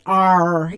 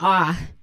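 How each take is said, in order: First: The final r sound is clearly pronounced. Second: The final r sound is dropped entirely. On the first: "I really have to make a concerted effort to, to pronounce R's" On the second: "usually I'm like, ah"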